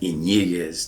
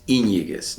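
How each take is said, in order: First: The stress is on a later syllable. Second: The stress is on the first syllable. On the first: The speaker calls it wrong. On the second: The speaker calls it right. "I would always place the accent on the Y"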